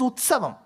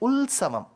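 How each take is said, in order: First: The middle consonant is a t sound. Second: The middle consonant is an l sound. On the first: It is the proper Sanskrit way of saying it. The speaker calls it right. "It is Utsavam" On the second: It is the regional Malayalam way of saying it. The speaker calls it wrong. "they'll say Ulsavam"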